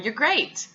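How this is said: It is said with genuine, enthusiastic warmth. The praise is meant and believable. "because of my level of vocal enthusiasm"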